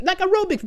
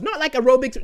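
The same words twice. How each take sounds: First: Aerobics lifted high, said as real aerobics; stress on aerobics. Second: Said in the usual way. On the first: Shown as a demonstration. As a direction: hit the word aerobics higher.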